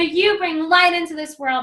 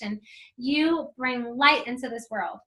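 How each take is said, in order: First: It is yelled loudly with high energy. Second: It is said at an ordinary speaking volume. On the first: The affirmation catches attention and draws others in. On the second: The affirmation gets little reaction.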